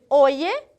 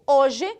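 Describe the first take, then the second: First: The middle consonant sounds like English y. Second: The middle consonant sounds like English sh. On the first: The speaker is from Peru or Spain. "se eu sou peruana espanhola" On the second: The speaker is from Uruguay or Argentina. "se eu sou uruguaia ou argentina"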